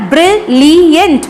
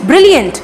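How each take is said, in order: First: brilliant split as ब्रि-लि-यंट; syllable by syllable. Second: Said in the usual way. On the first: Shown as a demonstration. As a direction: say brilliant slowly, each syllable separate. (Brilliant को तीन syllable में तोड़कर) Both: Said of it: "तीन syllable use हुए हैं".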